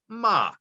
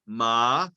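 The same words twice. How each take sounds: First: The pitch starts high and goes low. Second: The pitch warbles between high and low. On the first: It means horse. "the second tone, it starts uh, high and goes low" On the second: It marks a question. "the third tone is kind of a warble. It goes high and low"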